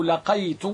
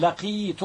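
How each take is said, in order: First: لقيت said "laqaytu", ay after the q; لقيت with fatha on the qaf, ay sound; fatha variant. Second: لقيت said "laqiitu", long ee after the q; لقيت with kasra on the qaf, ee sound; kasra variant. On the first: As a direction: say لقيت with the diphthong ay, la-QAY-tu. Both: Shown as a demonstration. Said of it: "إذا سمعت أحدا يقول".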